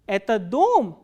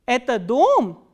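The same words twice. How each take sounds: The two takes are said the same way.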